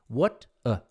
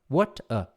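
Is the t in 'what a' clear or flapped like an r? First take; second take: clear; clear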